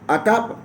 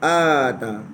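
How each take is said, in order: First: The opening vowel is short. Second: The opening vowel is long. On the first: It means came. "Satu atap pendek, hamzah pendek" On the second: It means brought or gave. "Satu hamzah panjang"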